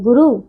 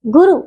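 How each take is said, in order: First: Said in the usual way. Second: गुरु with a mistaken vowel length; mispronounced गुरु. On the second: Shown as a demonstration. Teacher shows pupils the error, off vowel length in गुरु. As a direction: say the u sounds of गुरु at the wrong length. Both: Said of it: "नहीं".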